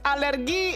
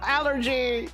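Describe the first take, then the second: First: It is pronounced the Indonesian way. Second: It is pronounced the English way. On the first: "the word for alert allergy in Indonesia is also alergi? You just say it differently" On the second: "instead of allergy"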